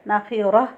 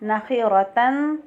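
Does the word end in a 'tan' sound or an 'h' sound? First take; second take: h; tan. First: The word ends with an 'h' sound. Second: The word ends with a 'tan' sound. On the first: The reader stops on this word. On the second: The reader continues without stopping.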